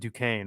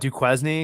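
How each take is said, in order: First: The name is pronounced the accepted, usual way. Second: The name is pronounced the way it is spelled. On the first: The speaker calls it right. "but that's like Duquesne, right?" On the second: The speaker calls it wrong. "I always call that Duquesne because that's the way it looks like"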